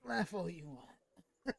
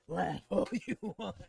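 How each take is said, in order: First: It is muttered quietly, as if to himself. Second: It is said out loud, to someone else.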